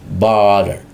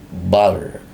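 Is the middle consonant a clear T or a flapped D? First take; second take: flapped D; flapped D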